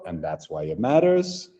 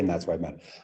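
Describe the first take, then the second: First: The phrase is said very slowly. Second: The phrase is said at a natural speed. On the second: "and then naturally"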